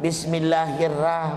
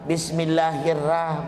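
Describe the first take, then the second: First: The r is followed by a thin a vowel. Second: The same.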